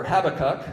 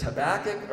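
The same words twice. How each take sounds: First: Habakkuk stressed on the first syllable, HAB-uh-kuk; Habakkuk with the beat on HAB; alternative pronunciation. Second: Habakkuk stressed on the second syllable, huh-BACK-uk; Habakkuk with the beat on BACK; alternative pronunciation. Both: Shown as a demonstration. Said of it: "It's pronounced both ways".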